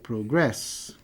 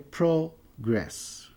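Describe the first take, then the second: First: The stress is on the last syllable. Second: The stress is on the first syllable. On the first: It is used as a verb. "O verbo tem a sua sílaba tônica na última sílaba" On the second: It is used as a noun. "Se for substantivo, a sílaba tônica é progress"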